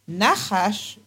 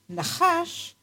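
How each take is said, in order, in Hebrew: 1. הטעם על ההברה הראשונה. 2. הטעם על ההברה האחרונה. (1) "והוגים אותו במילאל" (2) "והוגים אותו מלרע"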